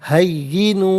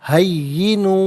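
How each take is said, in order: The two takes are said the same way.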